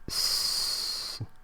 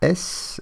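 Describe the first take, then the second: First: It is said as a bare consonant sound. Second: It is said as the full letter name. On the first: The speaker calls it right. "mais S, comme souris" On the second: The speaker calls it wrong. "ne se prononce pas S"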